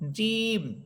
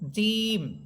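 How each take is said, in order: No difference in how they are said.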